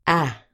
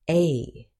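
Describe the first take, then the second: First: "ah" as the short vowel at the start of apple; a short, isolated "ah", as in bad. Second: A as "ay", the letter's name; long A. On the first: Teacher contrasting short with long sound, short A. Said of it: "The short sound is". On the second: Teacher contrasting long with short sound, long A. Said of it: "The long sound is". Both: Shown as a demonstration.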